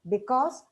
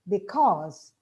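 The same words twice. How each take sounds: First: The syllable 'cause' carries no clear stress. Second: The syllable 'cause' carries clear stress. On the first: The speaker calls it wrong. "we tend to pronounce it as" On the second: The speaker calls it right. "these words are to be pronounced as"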